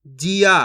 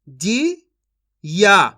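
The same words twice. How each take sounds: First: Said in the usual way. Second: "जी ... या" as separate sounds with a pause between; syllable by syllable. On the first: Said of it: "इनको आपस में लाके पढ़ देना है". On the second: Shown as a demonstration. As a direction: sound out जी, then या on its own. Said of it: "एक अक्षर का उच्चारण करके". (जी और या अलग-अलग बोलकर)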